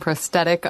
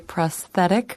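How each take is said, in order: First: The middle consonant is a plain t sound. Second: The middle consonant is a th sound. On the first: "I'm going to be saying prosthetic" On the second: "the other way with the T H sound"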